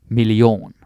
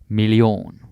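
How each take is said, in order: The two takes are said the same way.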